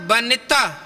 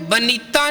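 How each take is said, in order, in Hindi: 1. n के बाद का स्वर छोटा और हल्का है। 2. n के बाद का स्वर लंबा खींचा जाता है। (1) "हल्का हल्के मात्रा दे नाल पढ़ना है" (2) "इनू बनीता नहीं पढ़ना"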